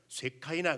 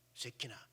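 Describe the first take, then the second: First: The middle syllable is said as "kai". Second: The middle syllable is said as "ki". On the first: "영어식 발음으로 하게 되면 쇠카이나 그래요" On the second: "히브리어로 쇠키나 그래요"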